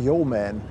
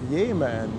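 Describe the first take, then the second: First: The first syllable sounds like 'yo'. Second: The first syllable sounds like 'yeh'. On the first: "Ich sage mal Yeoman" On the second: "Jemen gesprochen, sagt der Klaus"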